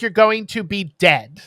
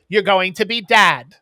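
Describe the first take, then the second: First: "dead" with the short vowel of "bed"; "dad" sounding like "dead". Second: "dad" with the open vowel of "bad"; "dad" as intended. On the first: Retold or imitated. Explaining how the accented line comes out, "dead" said with a short e. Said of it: "But it sounds like". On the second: Quoting the man congratulating the new fathers, "dad" said with an open vowel. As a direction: end clearly on "dad", vowel held open. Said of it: "he has an accent".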